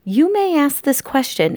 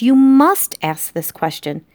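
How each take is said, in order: First: "may" lifted high in the question set-up; stress on may. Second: "must" punched high and loud; stress on must. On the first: Narrator addresses the reader directly, stress on "may". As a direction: lean lightly on "may". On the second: Narrator insists to the reader, stress on "must". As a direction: hit "must" hard as a correction. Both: A narrator's reading.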